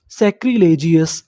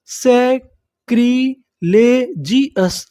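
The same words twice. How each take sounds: First: Said in the usual way. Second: सैक्रिलेजियस drawn out very slowly, falling; slow syllable-by-syllable. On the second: Shown as a demonstration. Teacher builds the whole word slowly for students. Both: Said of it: "पूरी meaning क्या बनी हमारी".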